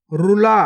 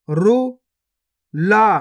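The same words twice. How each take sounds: First: Said in the usual way. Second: गुफा drawn out very slowly, each sound held long; slow stretched reading. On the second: Shown as a demonstration. Teacher showing pupils each sound, drawn out very slowly. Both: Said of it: "पहले तो आपको शब्द को गौर से सुनना है".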